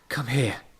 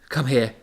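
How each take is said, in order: First: It is said in a very meek voice. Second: It is said in a mildly meek voice.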